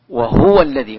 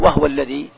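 First: The h is followed by a u vowel. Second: The h has no vowel after it. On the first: This follows the reading tradition being taught. "قراءة برواية حفص عن عاصم يضمها" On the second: This follows a different reading tradition. "إذا قلت وهو الذي سكنتها"

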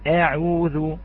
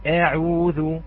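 No difference in how they are said.

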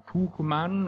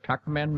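First: The name is said with German pronunciation. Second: The name is said with American pronunciation.

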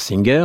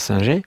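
First: The name is said with American English sounds. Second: The name is said with French sounds. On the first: "Aux États-Unis, on prononce Singer" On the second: "en France Singer"

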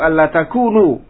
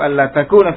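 First: The verb ends with a u vowel. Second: The verb ends with an a vowel. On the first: The particle is read as a lightened form of anna. "dibaca juga dengan rafa" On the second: The particle is read as the infinitive an that governs the verb. "dibaca nasab"

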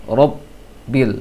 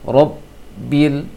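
Both takes have the same delivery.

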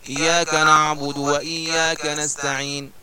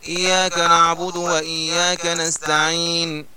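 The two takes are said the same way.

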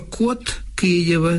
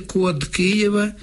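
First: The final д of код is devoiced to т. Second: The final д of код stays voiced. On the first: The speaker calls it wrong. "Дуже ріже вухо" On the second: The speaker calls it right. "дзвінки приголосні, ніколи не оглушуються"

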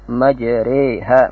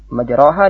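First: The vowel after r leans toward e. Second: The vowel after r is an open a. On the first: "al-imalah al-kubra ... akrab ila al-ya" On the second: "Seperti majraha dibaca majreha"

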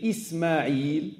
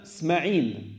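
First: The name starts with 'i' and ends in 'l'. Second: The name drops the 'i' and ends in 'n'. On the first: The speaker calls it right. "au lieu de dire Ismaïl" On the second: The speaker calls it wrong. "ils enlèvent une lettre et remplacent une autre"

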